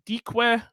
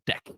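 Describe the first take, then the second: First: The word is not said like 'deck'. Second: The word is said like 'deck'. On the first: "couldn't it be like de, deque" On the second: "It is usually pronounced deck"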